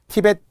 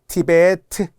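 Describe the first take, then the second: First: The word ends in a final consonant. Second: The word ends in an added vowel. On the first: The speaker calls it wrong. "티벳 고원 안 돼요" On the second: The speaker calls it right. "티베트 이렇게 발음을 생각하면서"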